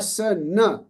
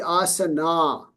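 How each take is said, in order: First: The marked a-vowel is kept short. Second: The marked a-vowel is held long. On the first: "when there is no no bar, it will be" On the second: "If there was a bar on top of this A, it will be asana"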